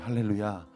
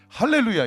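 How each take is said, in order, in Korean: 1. 소리가 목 안쪽으로 뒤로 가 있어요. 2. 소리가 목에서 눌리고 조여 있어요. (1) "목사님 소리가 뒤로 가잖아요" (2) "그건 목을 잡는 거고요"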